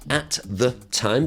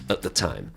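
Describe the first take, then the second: First: The words are said fully and separately. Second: The words are squashed together and reduced.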